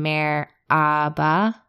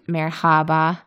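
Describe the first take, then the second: First: The middle h sound is dropped. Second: The middle h sound is pronounced. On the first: "you kind of lose the H" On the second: "instead of Merhaba"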